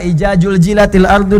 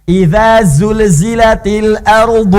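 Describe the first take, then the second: First: The first word uses a 'j' sound. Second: The first word uses a soft 'dh' sound. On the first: The speaker calls it wrong. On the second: The speaker calls it right.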